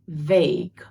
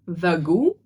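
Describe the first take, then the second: First: The word is said with one syllable. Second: The word is said with two syllables. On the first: The speaker calls it right. "it only has one syllable" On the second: The speaker calls it wrong. "Not vagu"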